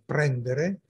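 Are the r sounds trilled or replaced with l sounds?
trilled. The r sounds are trilled with the tongue tip. "ad esempio"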